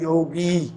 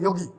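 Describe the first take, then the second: First: The final vowel is stretched out and held long. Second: The word is said quickly with a short final vowel. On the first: "जिसको खींचकर बोलते हैं वो बड़ी मात्रा होती है" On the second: "जल्दी से"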